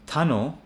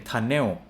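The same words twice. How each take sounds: First: Tunnel with weak second syllable, like 'tun-ol'; correct ending. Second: Tunnel as 'tun-NEO', ending emphasized; imitated learner's tunnel with a full 'el'; Thai-style mispronunciation. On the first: Shown as a demonstration. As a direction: stress the start of tunnel, ending like O. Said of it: "we read them as O". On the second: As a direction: lean on the EL at the end of tunnel. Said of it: "they emphasize the E L as L".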